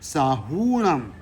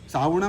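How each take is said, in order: First: The u vowel is held long. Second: The u vowel is cut short. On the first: The speaker calls it right. "દીર્ઘઉ બોલાવવો જોઈએ" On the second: The speaker calls it wrong. "નહીં"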